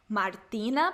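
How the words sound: The name is said with a rising question tune.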